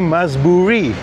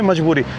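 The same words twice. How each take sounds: First: It is said with extra stress on the word. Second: It is said plainly, without extra stress. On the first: This is how it is said in Iran. "यहाँ पे बोलेंगे" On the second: This is how it is said in India. "Normal से tone में"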